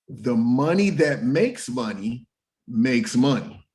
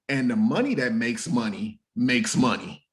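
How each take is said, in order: First: It is said more slowly. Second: It is said at a normal pace.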